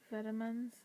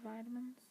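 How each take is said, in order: First: It is said in the speaker's own non-American accent. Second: It is said the way Americans say it.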